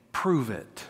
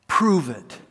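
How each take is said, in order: First: Soft, low taunting dare; low sneering challenge. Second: Said in the usual way. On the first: Acted. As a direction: dare them quietly, almost under the breath. King taunts the three men.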